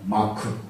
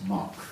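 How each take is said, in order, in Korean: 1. 한국식 발음으로 말합니다. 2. 영어와 비슷한 발음으로 말합니다. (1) "아주 정확한 한국적인 발음을 하면" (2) "영어로 여기서 흔적을 뭐라 하냐면 마크 그랬어요"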